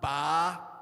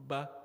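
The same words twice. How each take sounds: First: The vowel is said with a very wide mouth opening. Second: The vowel is said with a moderate mouth opening. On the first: The speaker calls it wrong. "So we don't say a, ba" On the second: The speaker calls it right. "So moderate"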